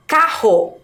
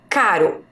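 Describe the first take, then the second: First: Carro with a strong H-like RR. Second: Caro with a light tapped R; weak R. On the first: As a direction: push the double R in carro. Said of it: "a minha pronúncia já é forte". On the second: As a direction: clear caro, R as a quick tap. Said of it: "a pronúncia é fraca". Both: Shown as a demonstration.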